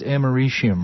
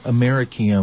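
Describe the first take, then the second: First: It is said without echoing the word America. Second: It is said so it echoes the word America. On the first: "it is americium, right?" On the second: "like I pronounce it when I do a cheesy bit for the American Chemical Society"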